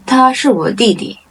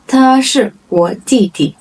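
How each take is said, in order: First: Said in the usual way. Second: Separated words for learners. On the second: Shown as a demonstration. Model sentence, slow first take.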